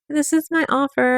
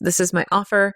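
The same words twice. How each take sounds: First: It sounds hesitant and unsure. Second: It sounds confident and sure.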